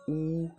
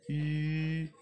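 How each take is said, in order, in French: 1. La voyelle est un son 'oo' postérieur arrondi. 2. La voyelle est un son 'u' antérieur arrondi. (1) "ne la prononcez pas comme euh, euh, OU" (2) "mais c'est plutôt U"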